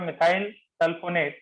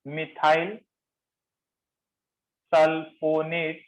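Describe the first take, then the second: First: Said in the usual way. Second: Methyl, long pause, then sulfonate drawn out very slowly; slow dictation. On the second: Shown as a demonstration. Teacher naming a new group for note-takers, slow dictation. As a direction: spell out the name by sound, chunk by chunk.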